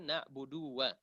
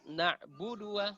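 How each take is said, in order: First: "na'budu wa" as "na'buduuwa"; wrongly lengthened. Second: "Na'budu wa" with short du straight into wa; quick, direct entry. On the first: Teacher shows what to avoid, lengthened du. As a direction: drag the du of "na'budu" into wa. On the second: Teacher shows the right way, short du. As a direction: keep the du of "Na'budu" unstretched. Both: Shown as a demonstration.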